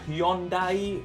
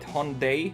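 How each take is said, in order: First: The name is said the European way. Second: The name is said the American way. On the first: "In Europe, usually it's called more towards that pronunciation" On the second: "In the U S, they call it Hyundai. That's a lot easier to pronounce"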